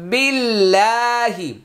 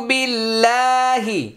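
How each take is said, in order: No difference in how they are said.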